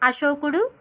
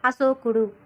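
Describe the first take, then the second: First: The middle consonant is a sh sound. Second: The middle consonant is an s sound. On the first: The speaker calls it right. "First అశోకుడులో షాకి ఓత్వం ఇస్తే షో" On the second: The speaker calls it wrong. "తర్వాత అశోకుడు అని పలికామంటే సాకి ఓత్వం ఇస్తే సో"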